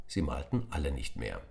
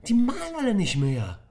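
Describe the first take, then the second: First: Said in the usual way. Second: Put-on die malen alle nicht mehr in a high, loud angry child's voice; angry schoolboy version; Tom hissing angrily. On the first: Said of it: "narrator line, same words". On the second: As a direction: snap it out furiously. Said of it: "fauchte Tom".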